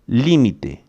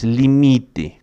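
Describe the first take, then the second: First: The stress is on the first syllable. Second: The stress is on the second syllable. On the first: This is the Spanish pronunciation. The speaker calls it right. "a sílaba forte é li" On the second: This is the Portuguese pronunciation. The speaker calls it wrong. "não é limite, como em português"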